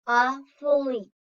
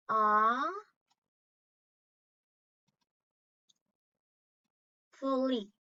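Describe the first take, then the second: First: Said in the usual way. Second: Aw- then a pause, then fully; syllables split apart. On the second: Shown as a demonstration. Teacher pausing between the two syllables of awfully for the class. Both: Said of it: "How many syllables does awfully have?".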